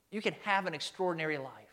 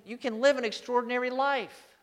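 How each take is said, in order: First: Said in the usual way. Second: Lifted, emphatic promise; declared with an exclamation point. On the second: Shown as a demonstration. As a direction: raise it high and proclaim it. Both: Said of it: "with an exclamation point".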